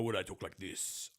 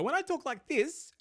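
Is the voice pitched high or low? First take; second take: low; high. First: The voice is pitched low. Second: The voice is pitched very high. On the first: "I'm actually relaxing them" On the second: "very up high, I'm actually tightening my vocal cords"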